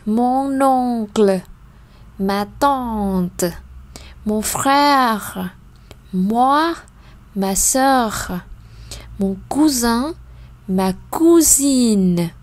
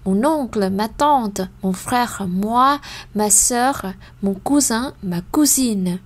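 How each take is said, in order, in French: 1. La liste est lue à un rythme lent. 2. La liste est lue à un rythme plus rapide. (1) "Encore une fois" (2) "mais plus rapide"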